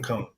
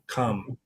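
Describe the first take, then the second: First: The syllable is said like the word 'come'. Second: The syllable is said with a 'com' vowel. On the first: The speaker calls it wrong. "Not come" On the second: The speaker calls it right.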